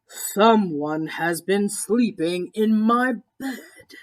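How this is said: It is said in a great big deep voice.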